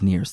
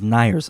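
First: The name is said with the common local pronunciation. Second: The name is said with a German pronunciation. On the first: "everybody says Neir's" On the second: "the right way to pronounce Neir's is Neir's"

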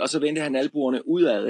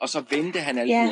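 First: The stress is on udad. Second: The stress is on vendte.

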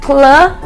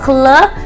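No difference in how they are said.

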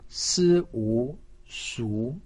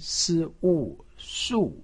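First: The pitch rises from middle to high. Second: The pitch falls sharply from high to low. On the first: "二声" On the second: "四声"

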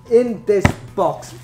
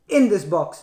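First: It is said with lots of energy. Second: It is said with little energy.

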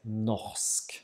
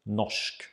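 First: A throaty r is followed by a separate s. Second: The r and s merge into one sh sound. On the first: "if we pronounce the R at in the throat... we would separate the R and the S sound" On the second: "when we pronounce the R at the tip of the tongue... the combination of an R and an S becomes a sh"

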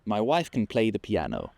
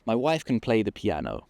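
No difference in how they are said.

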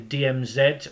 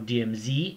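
First: It is pronounced the non-American way. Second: It is pronounced the American way.

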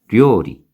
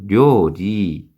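First: The final syllable is cut short. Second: The final syllable is drawn out long. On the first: The speaker calls it right. "끊어서 읽어야 됩니다" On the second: The speaker calls it wrong. "료리 길게 읽으면 안 되고"

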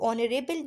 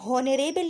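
First: The word begins with a vowel, no h. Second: The word begins with an audible h sound. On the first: The speaker calls it right. "एच जो है वो silent है" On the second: The speaker calls it wrong. "इसको हम हॉनरेबल नहीं कह सकते"

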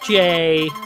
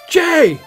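First: The name is said warmly and gently. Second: The name is shouted loudly and forcefully. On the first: "Sort of a friendly" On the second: "I like to shout my name. I don't speak softly. Somebody asks you your name, you shout it in their face"

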